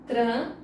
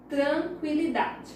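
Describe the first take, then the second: First: "Tranquilidade" broken into tran... qui... li... da... de; "Tranquilidade" with long pauses between all five syllables. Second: Said in the usual way. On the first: Shown as a demonstration. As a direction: give each syllable of "Tranquilidade" its own beat. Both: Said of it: "separar as palavras".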